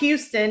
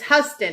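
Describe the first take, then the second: First: The first syllable sounds like 'hue'. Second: The first syllable sounds like 'how'. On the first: This is how the Texas city is said. The speaker calls it wrong. "it's not Houston" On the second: This is how the New York road is said. The speaker calls it right. "it's Huston"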